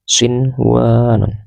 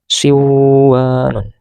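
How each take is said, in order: First: The n sound before w is pronounced clearly. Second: The n sound before w is dropped. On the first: The speaker calls it right. "harus tetap dibaca sinwanun, harus tetap jelas" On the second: The speaker calls it wrong. "tidak boleh dibaca siwanun"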